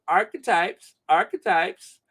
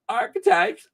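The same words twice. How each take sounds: First: Said in the usual way. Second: "archetypes" jumped up high in a squeal; playful high pitch. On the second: Pretend. Repeated word, playful chant.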